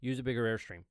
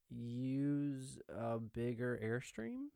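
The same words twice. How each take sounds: First: The instruction sounds firm and assured. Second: The instruction sounds tentative and unsure. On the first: The student is more likely to follow the instruction. The speaker calls it right. "I sound like I know what I'm talking about" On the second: The student may question the instruction. The speaker calls it wrong. "that's not as confident"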